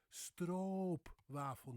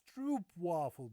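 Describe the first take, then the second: First: Stroopwafel slowly, with a long O as in boat; correct Dutch pronunciation. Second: Stroopwafel with oo as in boot; English mispronunciation. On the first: Teacher correcting English speakers, slow Dutch stroopwafel. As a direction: draw out the O in stroopwafel. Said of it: "No, it's stroopwafel". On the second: Teacher imitating English speakers, mispronounced stroopwafel. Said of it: "many English speakers would pronounce this as". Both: Shown as a demonstration.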